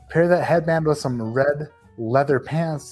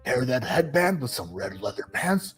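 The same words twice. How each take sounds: First: It is read in the speaker's ordinary voice. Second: It is read in a put-on imitation voice.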